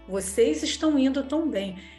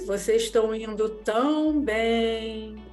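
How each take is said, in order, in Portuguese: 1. É dito com um tom simples e neutro. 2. É dito com um tom irônico, de zombaria. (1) "A frase é" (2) "o meu timbre de voz, a ironia da minha"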